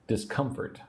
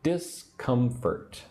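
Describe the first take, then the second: First: Said in the usual way. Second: Discomfort very slow, three separated syllables. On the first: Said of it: "say the word discomfort with me". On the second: Shown as a demonstration. Teacher showing three syllables, Discomfort slowly broken up. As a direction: stretch Discomfort out, a gap after each syllable. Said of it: "Three syllables".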